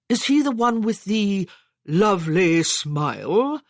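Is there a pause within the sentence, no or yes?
yes. It has a long pause and a deeper voice.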